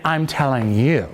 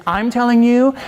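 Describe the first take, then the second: First: "you" landed low with a falling close; grounded, falling "telling you"; telling YOU directly. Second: "telling you" pushed up and held, not landed; lifted, louder "telling you"; telling at someone. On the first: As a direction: aim "you" straight at the listener, dropping the pitch. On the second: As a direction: say "I'm telling you" raised, as if unfinished. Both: Shown as a demonstration. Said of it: "there's, I'm telling you".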